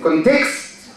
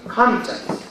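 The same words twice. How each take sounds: First: The stress is on the second syllable. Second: The stress is on the first syllable. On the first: The speaker calls it wrong. "I don't want to hear it context" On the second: The speaker calls it right. "The stress is on the first syllable"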